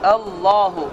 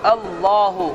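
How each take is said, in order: The two takes are said the same way.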